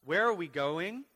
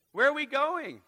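First: Said in the usual way. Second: Where are we going called out much higher and louder; fiery preacher shout; shouted question. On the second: Acted. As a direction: throw the question at the crowd.

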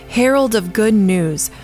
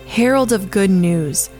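Both takes have the same delivery.

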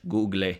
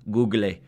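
First: "Google" again as goo-gleh, Spanish-style; Spanish pronunciation. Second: "Google" said Spanish-style as goo-gleh; "Google" pronounced the Spanish way, goo-gleh; Spanish pronunciation. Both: Shown as a demonstration. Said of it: "That's how they say it in Spanish".

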